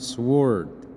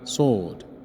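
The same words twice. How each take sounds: First: The w sound is pronounced. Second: The w sound is silent. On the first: The speaker calls it wrong. "ما بقولش الكلمة sword" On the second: The speaker calls it right. "الدبليو ما بتتنطقش، بقولها sword"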